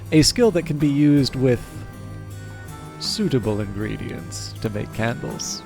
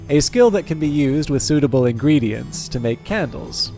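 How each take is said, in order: First: There is a long pause before 'suitable'. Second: It is read straight through without a pause. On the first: "leave a meaningful pause before the word suitable" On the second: "I'll read it twice"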